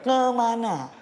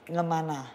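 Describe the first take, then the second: First: The word is said slowly and clearly. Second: The word is said quickly, first syllable blurred. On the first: "Kalau pelan tuh gini" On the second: "Kalau cepet itu"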